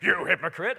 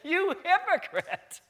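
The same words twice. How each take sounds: First: It is said sternly, as a harsh rebuke. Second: It is said playfully, with a laugh.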